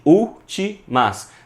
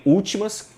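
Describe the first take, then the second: First: "últimas" slowly broken as úl-ti-mas; split into syllables. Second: Said in the usual way. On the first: Shown as a demonstration. Teacher divides the word for students, saying "últimas" in separate syllables. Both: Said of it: "que a gente divide".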